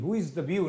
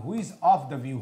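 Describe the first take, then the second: First: Said in the usual way. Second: "of" clearly marked in "who is of the view"; stress on OF. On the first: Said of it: "who is the view नहीं". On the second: Shown as a demonstration. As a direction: put the weight on the word "of". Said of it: "ऐसा सवाल नहीं, who is of the view होगा".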